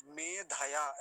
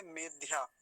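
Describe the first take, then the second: First: मेधया slow in three syllables, me-dha-yaa; full dha. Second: मेध्या in two syllables, medh-yaa; half dha. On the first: Teacher showing the correct form, full dha. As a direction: give dh in मेधया its own vowel. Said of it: "ऐसा बोलेंगे". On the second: Teacher showing the hypothetical wrong form, half dha. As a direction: join dh straight onto yaa in मेध्या. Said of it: "धकार आधा होता तो". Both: Shown as a demonstration.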